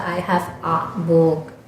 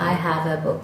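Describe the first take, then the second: First: "a" in "I have a book" as a separate "aa"; slow imitation of learners stressing a long "A"; students' mispronunciation. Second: Said in the usual way. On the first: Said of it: "Mereka nggak bisa". (meniru pelafalan murid, "a" dibaca "aa" panjang) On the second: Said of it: "Misalkan saya bilang".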